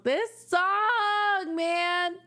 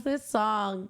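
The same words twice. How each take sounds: First: Much higher, emotional gush; overwhelmed gush. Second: Said in the usual way. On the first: Real, not acted. Fan overwhelmed by the song, gushing high. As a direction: let it burst out of you, pitched way up.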